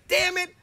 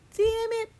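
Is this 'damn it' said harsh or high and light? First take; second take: harsh; high. First: It is said low and harsh. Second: It is said high and light. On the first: The speaker calls it wrong. "it can't be like" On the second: The speaker calls it right. "damn it has to be high"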